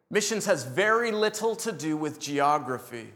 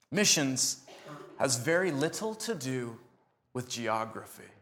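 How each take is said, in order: First: Said in the usual way. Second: Broken into phrases with long pauses, fading softer at the end; slow deliberate pauses. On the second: Shown as a demonstration. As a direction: let each phrase land alone before going on.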